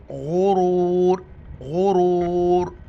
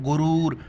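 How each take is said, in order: First: गुरूर chanted slowly with a throaty gh, long second vowel; throaty ghain. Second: गुरूर said quickly with an everyday hard g; short, unchanted गुरूर with g instead of gh; hard g mispronunciation. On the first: Teacher showing the correct reading, throaty ghain in गुरूर. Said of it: "इसको गैन पढ़ना है". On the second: Teacher quoting a common mistake, hard g in गुरूर. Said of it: "बाज़ पढ़ते हैं गुरूर". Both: Shown as a demonstration.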